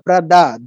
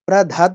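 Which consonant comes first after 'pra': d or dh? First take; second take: d; dh. First: The plain d comes before the aspirated dh. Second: The aspirated dh comes before the plain d. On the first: The speaker calls it right. "দটা আগে" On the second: The speaker calls it wrong. "প্রধাদ না"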